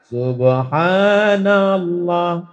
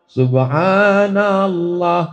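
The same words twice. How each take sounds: Both takes have the same delivery.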